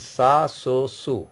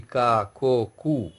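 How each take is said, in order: First: "sa, so, su" with an s sound; valid soft C. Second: "ka, ko, ku" with a hard k sound; invalid hard C. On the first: Teacher showing valid C cedilla combinations, "sa, so, su" with soft s. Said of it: "This is the valid actually". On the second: Teacher showing French C without cedilla, "ka, ko, ku" with hard k. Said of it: "there is no meaning in French language". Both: Shown as a demonstration.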